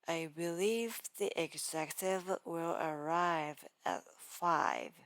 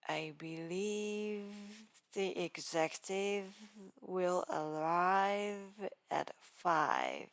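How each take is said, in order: First: The V sounds are said naturally. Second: The V sounds are strongly exaggerated.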